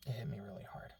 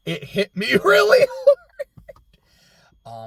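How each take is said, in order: First: Said in the usual way. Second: Louder, higher, laughing mid-phrase. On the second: Real, not acted. Telling viewers the bridge scene hit her, laughing. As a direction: laugh through the words.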